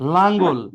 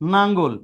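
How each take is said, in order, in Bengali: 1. শব্দটি L উচ্চারণ দিয়ে শুরু হয়। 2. শব্দটি N উচ্চারণ দিয়ে শুরু হয়।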